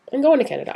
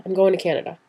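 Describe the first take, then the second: First: Higher, louder, thrilled declaration; excited. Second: Said in the usual way. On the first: Retold or imitated. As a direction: announce it with glee. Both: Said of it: "I'm like".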